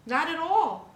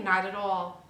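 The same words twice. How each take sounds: First: "Not at all." again much higher and louder, hitting "all" with a falling end; insistent repeat; emphatic denial. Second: Said in the usual way. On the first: Real, not acted. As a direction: push the second one up hard and firm. Answers own rhetorical question twice.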